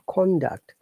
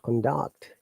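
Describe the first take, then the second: First: The stress is on the first syllable. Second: The stress is on the second syllable. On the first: It is used as a noun. "for the noun, we stress on the first part" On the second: It is used as a verb. "when it's a verb, we stress on the second one"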